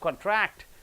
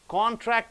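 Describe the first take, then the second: First: The stress is on the last syllable. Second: The stress is on the first syllable. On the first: It is used as a verb. "last syllable if you stress" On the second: It is used as a noun. "first syllable if you stress"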